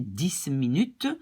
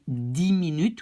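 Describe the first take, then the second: First: Dix is said apart from minutes. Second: Dix runs straight into minutes. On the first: The speaker calls it wrong. "We don't say dix minutes because it's linked to the M" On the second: The speaker calls it right. "we say dix minutes"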